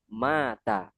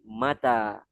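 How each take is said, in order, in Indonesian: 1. Suku kata pertama punya vokal panjang. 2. Suku kata kedua punya vokal panjang. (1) "bukan mata" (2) "tapi mata"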